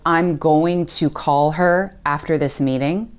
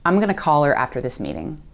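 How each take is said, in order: First: Going to is said fully as two words. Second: Going to is squeezed into gonna. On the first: "Instead of" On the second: "Going to is reduced to gonna"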